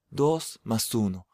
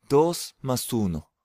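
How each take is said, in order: Both takes have the same delivery.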